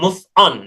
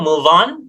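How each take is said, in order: First: The two words are said separately. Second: The two words are linked smoothly together. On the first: The speaker calls it wrong. "bukan move on. Nah itu terpisah" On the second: The speaker calls it right. "Itu cara bacanya ya"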